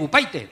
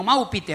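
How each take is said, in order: First: "Upaite" with PAI in place of PI; I turned to "ai". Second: "Maupite" with a plain "ee" in PI; Spanish I sound. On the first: Customer mocking the shop girl's rule, "Upaite" with "ai". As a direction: say "Upaite" ending in PIE-teh. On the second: Customer joking back at shop girl, "Maupite" with Spanish I. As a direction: say "Maupite" ending in PEE-teh. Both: Retold or imitated. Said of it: "la I se pronuncia ay".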